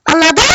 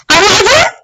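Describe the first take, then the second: First: Said in the usual way. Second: Higher, louder "Anladın?" with a rising end; louder insistent repeat. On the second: Acted. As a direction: press "Anladın?" again, mock threatening.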